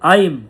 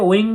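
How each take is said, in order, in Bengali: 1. শব্দটি m ধ্বনিতে শেষ হয়। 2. শব্দটি ng ধ্বনিতে শেষ হয়। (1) "সংস্কৃততে প্রপার উচ্চারণ হচ্ছে আইম" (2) "আমরা যেটাকে ওয়িং বলি"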